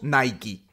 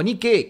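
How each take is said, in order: First: It is pronounced the usual Latin American way. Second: It is pronounced close to the Greek original. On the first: The speaker calls it wrong. "le decimos Nike" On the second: The speaker calls it right. "una pronunciación mucho más cercana al griego"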